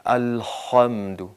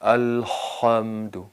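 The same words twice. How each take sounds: No difference in how they are said.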